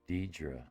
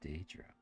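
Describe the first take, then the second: First: The first vowel is said as E. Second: The first vowel is said as A. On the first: This follows the spelling rule for the vowel pair. "Silent A" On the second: This is how the speaker assumed it was said. "I thought it was Daedra"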